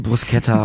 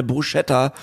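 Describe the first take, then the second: First: "Bruschetta" with an s-k sound; correct pronunciation. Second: "Bruschetta" with a sh sound; wrong pronunciation. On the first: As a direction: say "Bruschetta" as broos-KET-ta. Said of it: "Dabei ist es die". ("Bruschetta" richtig als "Brusketta") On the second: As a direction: say "Bruschetta" as broo-SHET-ta. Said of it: "mich hat niemand korrigiert". ("Bruschetta" falsch mit sch gesprochen) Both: Shown as a demonstration.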